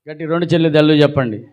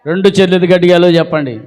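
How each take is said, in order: First: Said in the usual way. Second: Quick, insistent raised-voice call; forceful prompt. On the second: Real, not acted. Preacher asking the congregation again for hallelujah, forceful quick call. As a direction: push the crowd to answer loudly.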